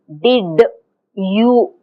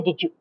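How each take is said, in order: First: The d and y sounds stay separate. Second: The d and y merge into a j sound. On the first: The speaker calls it wrong. "we don't say did you. We don't speak like that" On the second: The speaker calls it right. "We say did you. This is j"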